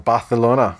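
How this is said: The name is pronounced in a Spanish way.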